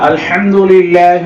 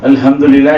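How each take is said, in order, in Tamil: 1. h என்பது தொண்டையிலிருந்து வரும் வலுவான ஒலி. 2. h என்பது நெஞ்சிலிருந்து வரும் மெல்லிய மூச்சு. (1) "தொண்டையில் நடுவில் இருந்து உச்சரிக்கணும்" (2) "நெஞ்சில் உச்சாரிக்கிறாங்க"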